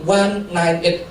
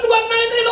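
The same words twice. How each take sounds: First: Said in the usual way. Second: Shopkeeper's shriek. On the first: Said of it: "saya bilang". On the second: Retold or imitated. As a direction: squeal "one nine eight" like a relieved shopkeeper. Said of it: "Saya dibilang malaikat".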